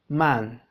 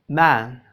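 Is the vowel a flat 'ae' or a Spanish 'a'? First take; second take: Spanish a; flat ae. First: The vowel is a plain Spanish 'a'. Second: The vowel is a flat, open 'ae'. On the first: The speaker calls it wrong. "no hacer la A que pronunciamos cotidianamente en el español, porque entonces sonamos así" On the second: The speaker calls it right. "No, no, no. Es"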